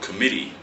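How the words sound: It is said in an American accent.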